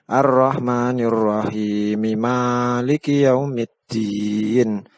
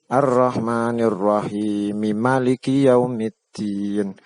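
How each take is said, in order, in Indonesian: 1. Vokal pertama pada maliki panjang. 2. Vokal pertama pada maliki pendek. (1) "maliki pada surat Al-Fatihah dibaca panjang" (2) "mim maliki dibaca pendek. Ini ma pendek"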